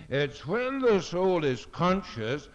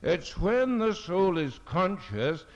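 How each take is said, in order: Both takes have the same delivery.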